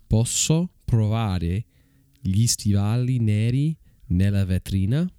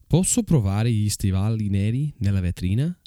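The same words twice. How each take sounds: First: The phrase is spoken at a slow pace. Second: The phrase is spoken at a fast pace. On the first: "I'll say it slowly for you" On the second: "that was fast, I know"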